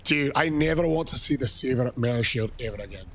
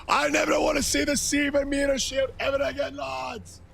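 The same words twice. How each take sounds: First: Said in the usual way. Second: Re-shouts the line, fired up; shouted repeat. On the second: Shown as a demonstration. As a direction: yell it again for the chat. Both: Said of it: "repeat shouted".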